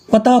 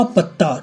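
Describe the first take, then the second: First: Said in the usual way. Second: पत्ता with a held double त; lengthened consonant. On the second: Shown as a demonstration. Teacher giving length examples, पत्ता with a held त्त. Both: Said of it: "उसी का एक भेद है दीर्घता".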